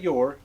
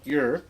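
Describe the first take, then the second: First: The word is said in standard English form. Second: The word is said in a folksy dialect form. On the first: The speaker calls it wrong. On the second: The speaker calls it right.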